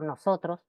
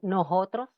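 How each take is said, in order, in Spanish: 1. La s del medio suena como una s clara. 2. La s del medio suena como una h aspirada.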